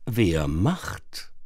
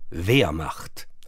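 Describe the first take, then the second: First: The stress is on the second syllable. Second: The stress is on the first syllable. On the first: It asks who will do the job. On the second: It names the historical German army.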